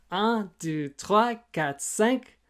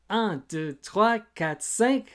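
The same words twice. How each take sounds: The two takes are said the same way.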